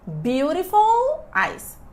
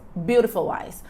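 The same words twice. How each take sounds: First: The two words are said slowly and apart. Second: The words run quickly together, the l linking.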